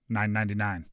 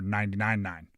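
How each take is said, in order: First: A single nine comes first, then ninety-nine. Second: Ninety-nine comes first, then a single nine. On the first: It reads as an athletic score. "Depends. It all just depends how you say it" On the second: It reads as the radio station's name. "he's making a ninety-nine nine the fan joke"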